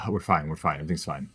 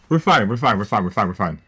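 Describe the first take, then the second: First: Softer, lower everything's fine; resigned mutter. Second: Panicky reassurance. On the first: Streamer losing again mutters to himself, soft and resigned. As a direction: say it to yourself after a sigh. After a sigh, resigned repeat. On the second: Streamer in trouble tells chat, loud and panicky, that they're fine. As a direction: insist loudly it's all okay while it isn't. Panicking during a losing round. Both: Real, not acted.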